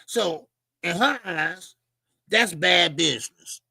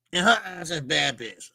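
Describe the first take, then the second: First: Slow, weighty delivery, leaning on every word; measured, emphatic judgment. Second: Said in the usual way. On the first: Shown as a demonstration. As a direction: spell it out slowly like a verdict.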